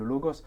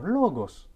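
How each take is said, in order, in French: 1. Le mot se dit sans saut de hauteur. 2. La syllabe accentuée monte en hauteur.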